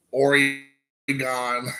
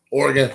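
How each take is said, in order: First: Oregon stretched slowly into "OR-ee ... gone"; mispronunciation. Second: Oregon quickly as a short "OR-gun"; usual pronunciation. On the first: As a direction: break Oregon up slowly, ending on a long gone. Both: Shown as a demonstration. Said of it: "Oregon has been Oregon".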